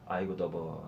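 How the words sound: The word for hot has a faint b sound. "약간 버 발음이 살아있죠"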